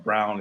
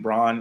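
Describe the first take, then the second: First: The vowel is said like in 'brown'. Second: The vowel is said like in 'brawn'. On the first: The speaker calls it right. "excuse me" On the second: The speaker calls it wrong. "even though it says Braun"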